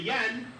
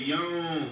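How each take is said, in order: First: The n is pronounced fully and clearly. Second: The n is hidden in a nasal sound. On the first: The speaker calls it wrong. "we would say Yan, but we don't say yan" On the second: The speaker calls it right. "So we say yon sword"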